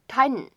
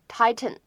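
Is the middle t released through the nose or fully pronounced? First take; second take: nose; fully pronounced. First: The t is released through the nose. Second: The t is fully pronounced. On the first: "它当中是存在一个鼻腔爆破的" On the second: "你呢可以把它读成tighten，这样呢也是可以接受的"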